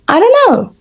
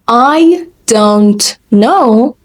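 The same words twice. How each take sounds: First: The words are reduced and run together quickly. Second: Each word is said clearly and separately.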